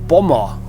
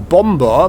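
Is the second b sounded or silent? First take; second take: silent; sounded. First: The second b is left silent. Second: The second b is clearly pronounced. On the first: The speaker calls it right. "you don't pronounce the second B" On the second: The speaker calls it wrong. "it's not a bomb or bomber"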